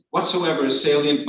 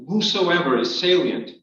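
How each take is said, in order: First: Said in the usual way. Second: "Whosoever" said with a "who" sound instead of "what"; misread word. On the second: Shown as a demonstration. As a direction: read "Whosoever" as a slip, starting with "hoo".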